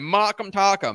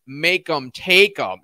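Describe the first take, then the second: First: The vowels sound like the vowel in 'mock'. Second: The vowels sound like the vowel in 'make'. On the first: The speaker calls it wrong. "I've been calling you Mock'em Tock'em this whole time" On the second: The speaker calls it right. "I believe that's the correct pronunciation"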